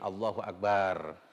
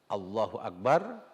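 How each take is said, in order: First: The 'bar' syllable is drawn out long. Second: The 'bar' syllable is short. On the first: The speaker calls it wrong. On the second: The speaker calls it right.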